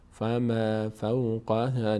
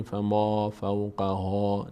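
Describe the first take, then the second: First: "فما فوقها" slowly with thin, fronted a; light vowels. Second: "فما فوقها" with dark aw-like long vowels; wrong heavy vowels. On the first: Teacher models the right reading, light vowels. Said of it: "هیچ کدوم پر خونده نمیشه". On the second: Teacher shows what not to say, heavy vowels. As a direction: back and thicken the a in "فما فوقها". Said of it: "نگیم فما فوقها". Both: Shown as a demonstration.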